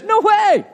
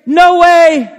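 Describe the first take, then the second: First: Emphatic no way. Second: Loud high no way; emphatic no way. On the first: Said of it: "He just says". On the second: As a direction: slam the door on it. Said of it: "Very emphatic". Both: Retold or imitated.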